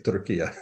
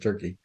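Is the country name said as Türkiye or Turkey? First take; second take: Türkiye; Turkey. First: It is said the newer way, like Türkiye. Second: It is said the older way, like Turkey. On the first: The country's government asked for this form. "So I say Turkey now" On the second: This is the older international form. "instead of Turkey"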